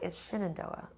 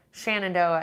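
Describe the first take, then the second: First: "Shenandoah" said SHIN-an-DOH-ah, softly; first syllable of "Shenandoah" like shin; her own pronunciation. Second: "Shenandoah" said SHAN-an-DOH-ah; first syllable of "Shenandoah" rhymes with can; hikers' pronunciation. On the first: Shown as a demonstration. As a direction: quietly correct "Shenandoah" to open with SHIN. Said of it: "and I'm like". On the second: Retold or imitated. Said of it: "a lot of A T hikers saying".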